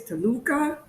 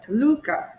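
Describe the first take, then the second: First: "Toluca" said with the pitch rising at the end, like a question; trying the stress. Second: "Toluca" said slowly and louder with a falling tune, the stress landing firmly; second stress try. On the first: Wife sounding out the city name, first try, rising. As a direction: test "Toluca" with an upward, unsure tune. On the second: Wife trying the name again, slower, firm and falling. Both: Shown as a demonstration. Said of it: "there's rules for where to put the stress on the word".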